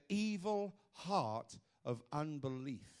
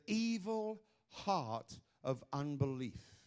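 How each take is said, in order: Both takes have the same delivery.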